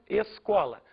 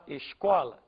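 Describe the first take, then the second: First: The S is said as elsewhere in Brazil. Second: The S is said as in Rio de Janeiro. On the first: "eu vou falar, por exemplo" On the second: "O carioca vai falar"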